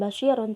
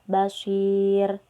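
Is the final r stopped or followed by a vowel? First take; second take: vowel; stopped. First: The r is followed by the vowel ending -un. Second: The word stops on r after a long vowel. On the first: The speaker calls it wrong. "Bukan basyirun" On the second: The speaker calls it right. "kita matikan aja bacaan ro-nya... Dan dibaca panjang"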